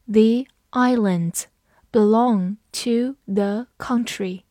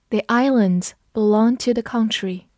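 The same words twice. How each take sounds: First: Slow, careful reading of the sentence. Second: Said in the usual way. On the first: Shown as a demonstration. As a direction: read each word slowly and clearly. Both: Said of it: "我们慢读一遍".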